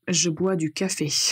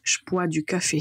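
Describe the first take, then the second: First: The sentence is said at a normal pace. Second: The sentence is said quickly. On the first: "la phrase correcte" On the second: "si vous voulez le dire plus vite"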